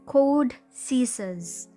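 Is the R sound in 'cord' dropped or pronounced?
dropped. The R in 'cord' is dropped. The listener understood it. The speaker calls it right. "so I adjusted"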